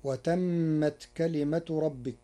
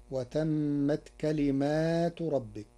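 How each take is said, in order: First: كلمة as singular kalimatu; كلمة without alif after mim; reading of Hafs. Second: كلمات with long alif after mim, slowly; كلمات read as kalimatu with long a; Warsh reading. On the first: (كلمة بلا ألف بعد الميم) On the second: (كلمات بألف بعد الميم) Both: Shown as a demonstration. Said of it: "بألف بعد الميم في لفظ كلمة".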